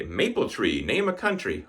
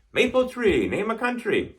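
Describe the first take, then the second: First: Said in the usual way. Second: Quiz prompt. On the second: Retold or imitated. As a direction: pitch "Maple tree, name a country" up like a quizmaster. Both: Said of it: "people were saying that so much".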